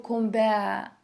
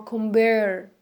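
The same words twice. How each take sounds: First: Compare ending in an open vowel, no R; British-style compare, R silent; British dropped R. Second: Compare with a full final R; American R. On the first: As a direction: leave the R off the end of compare. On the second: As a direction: sound the R clearly at the end of compare. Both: Shown as a demonstration. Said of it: "or compare".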